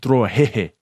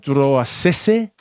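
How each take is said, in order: First: The surname is said with H sounds. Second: The surname is said with S sounds.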